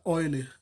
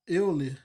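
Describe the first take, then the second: First: The name starts with an 'oy' sound. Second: The name starts with an 'eh-oo' sound. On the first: This is the original German pronunciation. "só que ele é alemão, aí costuma se é, pronunciar Euler" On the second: This is how it is read in Portuguese. "chama Euler, assim, em português"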